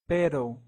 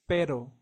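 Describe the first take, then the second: First: The r is a quick Spanish tap. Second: The r is a quick Spanish tap.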